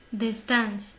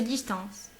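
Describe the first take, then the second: First: DISTANCE as German "dis-tants", ending crisp; German model word "Distance"; German pronunciation. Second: DISTANCE as French "dis-tanss", nasal vowel; French translation "distance"; French pronunciation. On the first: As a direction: say Distance with a sounded n and final ts. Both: Shown as a demonstration. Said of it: "c'est distance".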